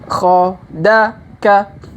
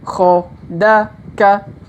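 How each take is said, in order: Both takes have the same delivery.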